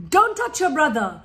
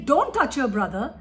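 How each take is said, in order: First: Firm louder nagging order; scolding command. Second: Said in the usual way. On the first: Shown as a demonstration. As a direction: bark it at a child like a tired parent. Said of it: "this is how we talk to our children". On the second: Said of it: "instead of saying".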